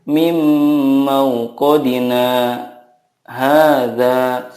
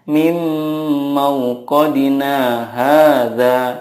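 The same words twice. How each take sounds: First: A brief stop comes before hadza. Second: The words run straight on without a break. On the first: The speaker calls it right. "tetapi ada saktanya dulu ya" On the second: The speaker calls it wrong. "Tidak boleh langsung dibaca seperti ini"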